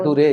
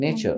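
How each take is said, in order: First: It is said with a 't' sound, 'na-too-ray'. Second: It is said with a 'ch' sound, 'nay-cher'. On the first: The speaker calls it wrong. "చిన్నప్పుడు మనం నేర్చుకునే విధానం మనకు చెప్పిన విధానంతో నేర్చుకుంటే" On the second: The speaker calls it right.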